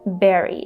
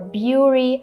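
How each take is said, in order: First: The vowel sounds like the one in berry. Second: The vowel sounds like the one in fury. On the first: The speaker calls it right. "the correct pronunciation is berry, just like in the word berry" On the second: The speaker calls it wrong. "people try to say Bury"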